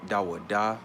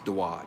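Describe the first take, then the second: First: A vowel is sounded after the final consonant. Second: The word ends on the bare consonant. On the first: The speaker calls it wrong. "some people say Dawa da" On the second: The speaker calls it right. "but it's Dawad"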